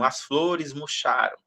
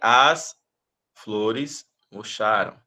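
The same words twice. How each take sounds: First: The words run together without any pauses. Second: Each word is followed by a clear pause. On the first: The speaker calls it right. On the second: The speaker calls it wrong.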